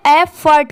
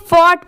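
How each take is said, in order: First: एफर्ट ending in "furt", not "fort"; correct pronunciation. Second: फॉर्ट with open "or" vowel; rounded o in फॉर्ट; standalone pronunciation. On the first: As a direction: say एफर्ट as "eff-urt". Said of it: "यहाँ पर इसकी sound क्या आ रही है". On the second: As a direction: say फॉर्ट as "fort". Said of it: "तो इसे फॉर्ट पढ़ेंगे". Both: Shown as a demonstration.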